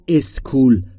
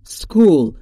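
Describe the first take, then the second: First: An extra vowel comes before the s. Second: The word starts directly with the s. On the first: The speaker calls it wrong. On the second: The speaker calls it right.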